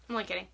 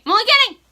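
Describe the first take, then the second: First: Soft and low, almost under the breath; quiet. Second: High and loud, laughing it off. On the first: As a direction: murmur I'm only kidding quietly. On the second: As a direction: belt out I'm only kidding. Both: Real, not acted.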